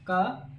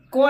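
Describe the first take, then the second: First: क said short and soft with no full vowel, the right way; correct ka. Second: को said as a plain full ko, the wrong way. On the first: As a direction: clip क to a bare consonant sound. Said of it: "ऐसे बोला जाता है". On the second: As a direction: say को with a full vowel, as the mistake. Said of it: "को बोलना गलत है". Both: Shown as a demonstration.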